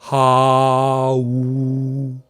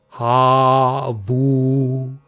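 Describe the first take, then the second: First: The two vowels meet with no v sound. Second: A v sound joins the two vowels. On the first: This is another tradition's way of breaking the vowels. "a few others as ha-u" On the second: This is one tradition's way of breaking the vowels. "some pronounce it as ha-vu"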